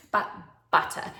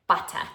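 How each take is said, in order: First: Said in the usual way. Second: "Butter" said in a broad New Zealand accent, as "putta". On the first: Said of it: "I know you like to hear that in my New Zealand accent". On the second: Shown as a demonstration. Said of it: "so I'll say it one more time".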